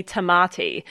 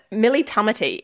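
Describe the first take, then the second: First: "Tamati" said tuh-MAH-tee, the common mispronunciation; second-syllable stress. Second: "Tamati" said TAH-muh-tee, weight up front; first-syllable stress. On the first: Retold or imitated. Host imitating how everyone says her surname, stress on middle of "Tamati". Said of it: "Everyone calls me Tamati". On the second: Shown as a demonstration. Host teaching guest her surname, first-syllable stress on "Tamati". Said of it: "put the emphasis on the, on the first syllable".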